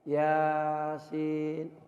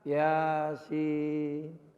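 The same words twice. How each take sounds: First: The vowel of 'sin' is held two beats. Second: The vowel of 'sin' is stretched much longer. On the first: "dua ketukan Yasin Yasin udah cukup" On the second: "Apalagi kalau dipanjangkan"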